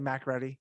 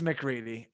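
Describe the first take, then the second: First: The first syllable has a full 'mac' vowel. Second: The first syllable is a short reduced 'muh'. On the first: The speaker calls it wrong. "Did I say Mac Ready?" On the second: The speaker calls it right. "it is McReady"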